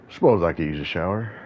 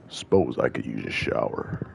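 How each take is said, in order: First: It is said in the speaker's normal voice. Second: It is said in a put-on character voice.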